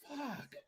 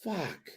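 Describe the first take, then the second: First: Nearly silent high curse; deflated. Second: Soft dejected curse; a quiet groaning fuck under the breath; deflated. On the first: Fan watching his favourite join Jericho, nearly inaudible. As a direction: breathe it out, barely voiced and pitched up. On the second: Fan watching his favourite join Jericho, quietly crushed. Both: Real, not acted.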